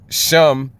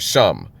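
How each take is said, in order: First: The vowel sounds like 'eh'. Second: The vowel sounds like 'ah'.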